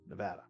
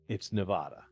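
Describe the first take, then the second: First: It uses the local residents' pronunciation of the name. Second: It uses the outsider's pronunciation of the name. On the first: The speaker lives in the state. The speaker calls it right. "The correct pronunciation is Nevada" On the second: The speaker does not live in the state. The speaker calls it wrong. "If you're not a resident of Nevada"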